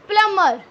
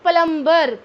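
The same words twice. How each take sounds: First: The b sound is silent. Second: The b sound is pronounced. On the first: The speaker calls it right. "आपका बी silent रहेगा. It's प्लम्बर" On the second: The speaker calls it wrong. "Note प्लम्बर"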